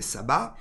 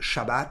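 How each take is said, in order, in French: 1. Le mot commence par un son s. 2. Le mot commence par un son ch. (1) "en français" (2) "ça dépend comment on le prononce en hébreu"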